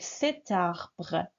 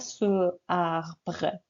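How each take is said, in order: First: A t sound links the two words. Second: No t sound; the two vowels meet directly. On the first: The speaker calls it right. "on fait la liaison" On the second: The speaker calls it wrong. "On ne dit pas ce arbre. Oui, voyelle, voyelle. C'est faux"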